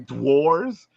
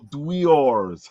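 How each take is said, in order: First: The word is said in a Brooklyn accent. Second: The word is said in a standard accent. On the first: The speaker calls it wrong. "my Brooklyn accent was making me say dwars" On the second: The speaker calls it right. "now I have to go dweors"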